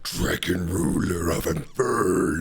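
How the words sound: It is read in a dramatic put-on voice.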